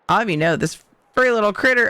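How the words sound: It is said in a casual dude voice. The speaker calls it wrong. "that was dude"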